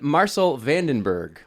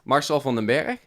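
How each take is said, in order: First: The name is said in an anglicized accent. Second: The name is said in its native accent. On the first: The speaker calls it wrong. "pronouncing his name in an atrocious accent hurts my soul" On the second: The speaker calls it right. "So I'll say it right"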